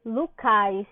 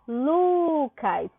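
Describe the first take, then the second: First: Lucais with the stress moved onto cais; stress on final syllable. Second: Lucas drawn out with a long, strong first syllable; stress on LU. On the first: Teacher turning the name heterotonic, stress on cais in Lucais. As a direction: say Lucais slowly, punching the last syllable, cais. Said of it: "Eu mudaria a sílaba tônica". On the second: Teacher showing the strong syllable, stress on the Lu of Lucas. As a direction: lean slowly on the Lu of Lucas. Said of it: "o Lu é a sílaba mais forte". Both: Shown as a demonstration.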